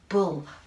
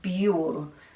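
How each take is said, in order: First: The vowel is the oo sound of books. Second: The vowel is the long you sound. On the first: The speaker calls it right. "sometimes the letter U says uh, as in uh, uh, I like books" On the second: The speaker calls it wrong. "That doesn't sound right either"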